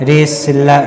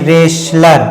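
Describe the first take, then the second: Both takes have the same delivery.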